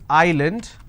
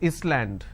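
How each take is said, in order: First: No s sound is heard in the middle. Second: An s sound is heard in the middle. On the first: The speaker calls it right. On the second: The speaker calls it wrong.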